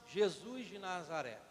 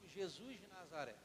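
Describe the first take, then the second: First: It is said forcefully, with strong conviction. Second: It is said plainly, with mild conviction.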